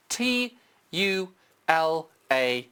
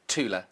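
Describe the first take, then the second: First: Letters spelled slowly one by one. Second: Said in the usual way. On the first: Shown as a demonstration. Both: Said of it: "just type in Tula".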